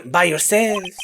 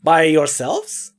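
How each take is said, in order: First: Slow "yourselves" dropping at the end; "yourselves" stretched, with falling tune; falling statement. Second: Slow "yourselves" lifting up at the end; "yourselves" stretched, with rising tune; questioning rise. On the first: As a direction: settle "yourselves" downward as a statement. Rereads the line as statement. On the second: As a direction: make "yourselves" a drawn-out question. Reads line first as question. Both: Acted.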